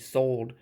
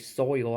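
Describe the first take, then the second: First: The vowel is a plain o, like "sold". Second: The vowel glides from o to ee, "soil". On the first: "I say sold because I'm from the South" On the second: "I don't say soil"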